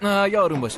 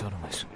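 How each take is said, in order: First: Louder, higher urgent plea; calm down. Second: Softer, lower gentle repeat; soft calm down. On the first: Brother pleading with frightened colleague, urgent raised voice. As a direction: raise the voice to settle him. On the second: Brother soothing frightened colleague, soft low hush. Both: Acted. Calming someone in car.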